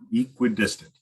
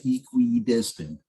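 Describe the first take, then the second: First: The third syllable is shortened and minimized. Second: Every syllable is carefully and fully enunciated. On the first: The speaker calls it right. "I just try to minimize the the what is that the third syllable?" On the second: The speaker calls it wrong. "people tend to like really enunciate it"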